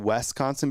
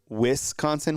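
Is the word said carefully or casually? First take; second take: casually; carefully. First: The word is said loosely, less clearly enunciated. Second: The word is carefully and clearly enunciated. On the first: The speaker calls it wrong. "more than Wisconsin because I said that" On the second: The speaker calls it right. "I'm trying to enunciate more of Wisconsin"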